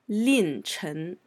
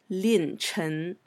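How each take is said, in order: The two takes are said the same way.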